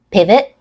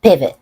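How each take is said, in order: First: "Pivot" rising, with a released final T; "Pivot" ending on an audible T release; true T. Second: "pivot" falling, with an unreleased final T; "pivot" cut off without releasing the T; stop T. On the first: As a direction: let the T pop at the end of "Pivot". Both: Shown as a demonstration. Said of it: "stop T and a true T".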